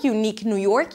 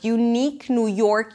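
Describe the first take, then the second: First: The phrase is said at a quick, brisk pace. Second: The phrase is said at a slow, careful pace. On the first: "Let's say it again a little faster" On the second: "Let's do it again"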